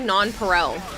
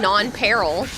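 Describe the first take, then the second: First: The ending is said the Latin way, 'pareil'. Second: The ending is said like the word 'peril'. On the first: This is the Latin pronunciation. The speaker calls it right. "I'm pronouncing it like the Latin term" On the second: This is how the other person says it. The speaker calls it wrong. "he keeps saying non-peril"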